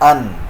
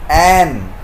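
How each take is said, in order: First: The vowel is a short reduced 'uh'. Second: The vowel is a full 'a' sound.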